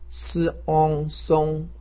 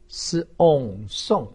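First: The pitch stays high and level. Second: The pitch falls sharply from high. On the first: "一声" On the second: "四声"

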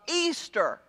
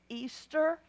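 First: It is said somewhat louder and firmer. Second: It is said in a tiny, quiet voice.

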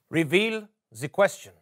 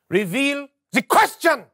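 First: It is said with low energy. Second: It is said with high energy.

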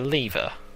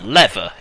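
First: It is said with a non-American pronunciation. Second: It is said with an American pronunciation.

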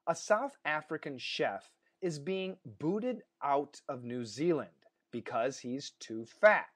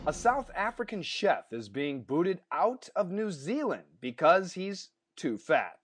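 First: The sentence is read at a slower pace. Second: The sentence is read at a fast pace. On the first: "why don't I read it a little bit more slowly?" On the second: "I read it fast"

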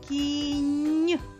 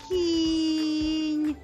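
First: The last sound is drawn out. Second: The middle vowel sound is drawn out. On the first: "Назви звук в кінці слова" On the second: "Назви звук після звука К"

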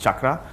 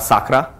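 First: The word begins with a ch sound. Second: The word begins with an s sound. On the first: The speaker calls it right. "That's why it's pronounced chakra" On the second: The speaker calls it wrong. "or sakra"

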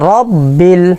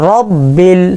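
No difference in how they are said.

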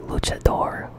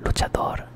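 First: It is pronounced the English way. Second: It is pronounced the Spanish way.

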